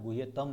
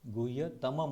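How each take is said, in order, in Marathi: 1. हा शब्द 'm' ध्वनीने संपत नाही. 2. हा शब्द 'm' ध्वनीने संपतो. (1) "हा गुह्यतम नाही आहे" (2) "गुह्यतमम आहे"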